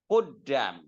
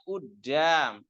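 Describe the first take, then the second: First: The word starts with a deep q sound. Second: The word starts with a glottal stop. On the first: This is the standard Arabic form. "asalnya Udam, bacanya kof" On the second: This is the Egyptian colloquial form. "di amia kof jadi apa? Hamzah"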